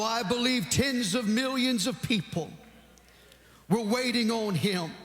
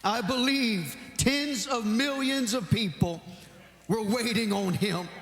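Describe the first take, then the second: Both takes have the same delivery.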